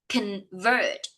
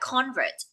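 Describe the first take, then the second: First: The stress is on the second syllable. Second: The stress is on the first syllable. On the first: The speaker calls it right. "the stress of the words lays on the second syllable" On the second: The speaker calls it wrong. "Do not read it like convert"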